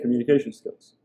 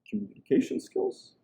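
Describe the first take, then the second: First: The voice stays level or falls at the end. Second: The voice rises at the end. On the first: "I don't just say communication skills" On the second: "with a little uptone at the end"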